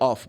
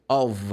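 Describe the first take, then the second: First: The word ends with an F sound. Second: The word ends with a V sound. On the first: The speaker calls it wrong. "I can say off, but off in English is double F" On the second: The speaker calls it right. "If I have just one F, I should say of. It sounds like v"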